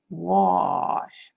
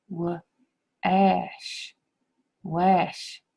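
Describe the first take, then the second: First: "Wash" with an ah vowel, like wahsh; correct reading. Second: "Wash" with the short a of apple, like wăsh; apple-sound reading. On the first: Teacher gives the class the right way to say it. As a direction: open the a to ah in "Wash". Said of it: "It's ah". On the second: Teacher tries the wrong apple sound on the word. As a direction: rhyme "Wash" with cash. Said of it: "let's try to say this word with the ah and the apple sound". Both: Shown as a demonstration.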